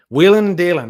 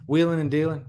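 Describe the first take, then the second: First: Called out loud and bright; savoring a Southern phrase out loud; exclaimed phrase. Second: Said in the usual way. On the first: Real, not acted. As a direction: announce the phrase with a punch. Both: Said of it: "is that a Southern phrase".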